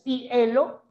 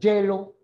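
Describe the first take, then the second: First: It begins with a plain vowel I sound. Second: It begins with a consonant Y-like sound. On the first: The speaker calls it wrong. "estarías incurriendo en un error de prosodia" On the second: The speaker calls it right. "Así. ... Lo pronuncias como si fuera la Y"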